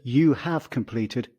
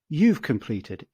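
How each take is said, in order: First: The words 'you have' are said in full. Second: The words 'you have' are contracted together. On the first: "So instead of" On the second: "we can go"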